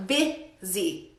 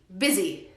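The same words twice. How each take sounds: First: "busy" split as BIH, pause, ZEE, low; syllable-by-syllable pronunciation. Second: Said in the usual way. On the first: Shown as a demonstration. Teacher drills the pronunciation, BIH... ZEE, slowly split. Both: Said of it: "pero no se pronuncia con U".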